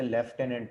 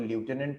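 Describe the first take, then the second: First: "lieutenant" said as "lef-TEN-ant"; lef-tenant pronunciation. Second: "lieutenant" said as "lyoo-TEN-ant"; loo-tenant pronunciation. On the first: Teacher showing students the other reading of lieutenant, "lef-tenant" pronunciation. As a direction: open "lieutenant" with "lef", sounding an f. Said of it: "American accent में इसे lieutenant पढ़ा जाता है". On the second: Teacher showing students one reading of lieutenant, "lyoo-tenant" pronunciation. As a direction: open "lieutenant" with a "lyoo" sound, no f. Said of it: "British accent में इसको lieutenant पढ़ा जाता है".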